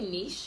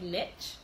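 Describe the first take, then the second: First: It is said the British way. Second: It is said the American way.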